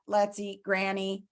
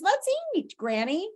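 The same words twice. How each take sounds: First: It is read flatly, like a robot. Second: It is read with lively expression. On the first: The grandmother is going to be eaten. The speaker calls it wrong. "you read it like a robot" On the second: The grandmother is being invited to eat. The speaker calls it right. "if you add some expression to it"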